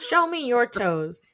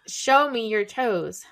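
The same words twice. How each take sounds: First: It is read at a quicker pace. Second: It is read at a slower pace.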